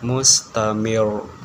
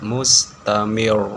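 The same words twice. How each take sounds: The two takes are said the same way.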